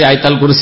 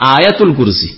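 First: The first word is squeezed into two syllables. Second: The first word has three full syllables. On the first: The speaker calls it wrong. "বিকৃত নাই?" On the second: The speaker calls it right. "ঠিক না?"

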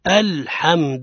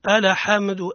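First: The L is held smooth with no echo vowel. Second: The L is bounced with an added echo vowel. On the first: The speaker calls it right. "الصواب هو الحمد" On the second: The speaker calls it wrong. "هذا خطأ يا سيدي"

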